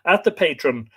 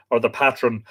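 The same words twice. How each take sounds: First: Patron as "PAY-trun"; long A. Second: Patron as "PAT-run"; short A. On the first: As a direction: say patron with the A of "day". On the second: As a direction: say patron with the A of "cat". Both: Shown as a demonstration. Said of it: "I presume it's patron rather than patron".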